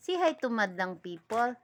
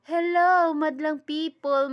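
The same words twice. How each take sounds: First: Said in the usual way. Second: Loud, high TV host hello to the crowd; hammed-up host greeting to the audience; showbiz host greeting. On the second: Shown as a demonstration. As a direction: belt it out like a variety show host.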